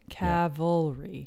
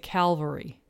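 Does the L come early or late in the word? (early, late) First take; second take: late; early. First: The L sound comes after the V sound. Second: The L sound comes right after the first vowel. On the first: The speaker calls it right. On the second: The speaker calls it wrong. "A lot of people say cavalry. They put the L in the wrong word"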